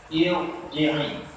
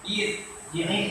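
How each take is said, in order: First: The r is pronounced thick and heavy. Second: The r is pronounced thin and light. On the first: The speaker calls it right. "ro ni baca tebal" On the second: The speaker calls it wrong. "jangan baca nipis. Ir ji'i salah"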